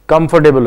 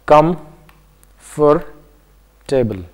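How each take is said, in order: First: Said in the usual way. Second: "Comfortable" said as com... for... table, long gaps between; split into parts. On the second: Shown as a demonstration. Teacher showing how to count syllables, "Comfortable" said part by part. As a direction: break "Comfortable" into three slow, separate parts. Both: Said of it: "pronounce a word, uh, in parts".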